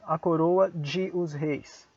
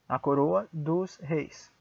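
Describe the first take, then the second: First: 'De os' is said as two separate words. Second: 'De os' is merged into one syllable 'dos'. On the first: The speaker calls it wrong. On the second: The speaker calls it right.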